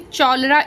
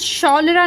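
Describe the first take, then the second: First: The word begins with a ch sound. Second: The word begins with a sh sound. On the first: "हम इसको यहाँ पे च sound नहीं पढ़ रहे, चौलरा इस तरीके से नहीं बोल रहे हैं" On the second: "या फिर शौलरा नहीं बोल रहे हैं"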